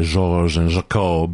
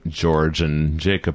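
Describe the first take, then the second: First: The names are pronounced with an affected French sound. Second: The names are pronounced the plain English way. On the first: "but I always say George and Jacob" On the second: "the characters' names meant George and Jacob"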